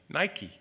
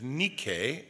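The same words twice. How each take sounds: First: The word is pronounced the English way. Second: The word is pronounced the Greek way. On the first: "or the way we like to pronounce it" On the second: "the Greek word for overcomer is nike"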